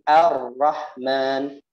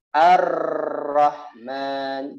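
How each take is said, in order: First: The r has a light, brief trill. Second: The r has a strong, long trill. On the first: The speaker calls it right. "takrir ini adalah getaran yang diringankan" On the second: The speaker calls it wrong. "tidak boleh ar-Rahman"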